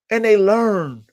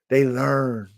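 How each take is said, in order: First: "they learn" higher and louder, stressed; emphatic. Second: Said in the usual way. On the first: Real, not acted. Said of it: "repeated, emphatic take". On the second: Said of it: "repeated, plain take".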